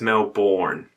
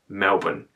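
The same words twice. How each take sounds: First: The name is said with an American pronunciation. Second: The name is said with an Australian pronunciation. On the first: The speaker calls it wrong. "if you're Americans, you probably pronounce it as Melbourne" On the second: The speaker calls it right. "It's Melbourne"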